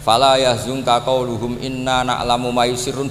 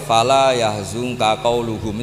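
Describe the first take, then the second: First: It runs on without stopping after qauluhum. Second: It clearly stops after qauluhum.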